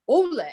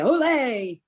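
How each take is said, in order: First: The stress is on the first syllable. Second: The stress is on the second syllable. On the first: This is how it is said at the bullfights. "The accent is on the first part" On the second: This is how Americans say it. "not the second part, like Americans say"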